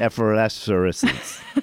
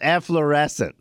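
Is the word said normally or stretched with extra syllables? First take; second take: stretched; normal. First: The word is stretched out with extra syllables. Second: The word is said with its usual syllables. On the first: The speaker calls it wrong. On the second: The speaker calls it right.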